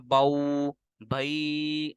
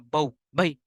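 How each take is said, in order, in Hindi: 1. स्वर लंबे खींचे गए हैं। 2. अक्षर अचानक काट दिए गए हैं। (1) "हमने इनको लंबा नहीं करना, बऊ भई ऐसे पढ़ेंगे गलत हो जाएगा" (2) "ना ही झटका देना, बऊ भई ऐसे भी नहीं पढ़ना"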